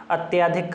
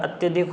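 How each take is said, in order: First: अत्याधिक with a long aa in त्या; wrong pronunciation. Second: अत्यधिक with a short vowel in त्य; correct pronunciation. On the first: Teacher scoffs at a misspelling, sounding its long vowel. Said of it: "अत्याधिक कहाँ होता है". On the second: Teacher gives the right spelling, short middle vowel. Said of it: "अत्यधिक होता है". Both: Shown as a demonstration.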